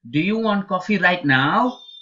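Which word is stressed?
right now. The stress falls on the words right now. Asks whether it is wanted at this time of day. "this time of the day, that's probably what you're asking"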